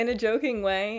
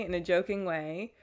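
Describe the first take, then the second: First: Joking. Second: Said in the usual way. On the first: Shown as a demonstration.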